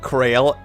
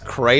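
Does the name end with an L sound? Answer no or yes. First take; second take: yes; no. First: The name ends with an L sound. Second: The name ends without an L sound. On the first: This follows the spelling instead of local usage. "I've been saying Krail, and I see the L there" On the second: This is how the locals say it. "they pronounce it as Cray"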